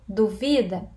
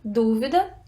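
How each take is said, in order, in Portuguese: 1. A sílaba tônica está na segunda sílaba. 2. A sílaba tônica está na primeira sílaba. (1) "Penúltima. Vi" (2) "a antepenúltima. Du"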